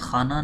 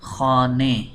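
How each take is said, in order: First: The final vowel is an open 'a' sound. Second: The final vowel leans toward an 'e' sound. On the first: This is the usual non-Persian reading. The speaker calls it wrong. "फ़ारसी में खाना नहीं पढ़ते" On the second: This is the Persian reading. The speaker calls it right. "बल्कि खाने"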